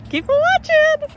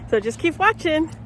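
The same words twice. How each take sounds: First: "Keep watching" sung up high and slow; high playful repeat. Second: Said in the usual way. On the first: Shown as a demonstration.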